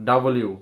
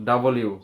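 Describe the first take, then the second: The two takes are said the same way.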